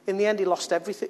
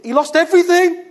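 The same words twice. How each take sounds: First: Said in the usual way. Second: Much higher, louder cry of loss; loud exclamation. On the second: Shown as a demonstration. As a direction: belt it out in despair.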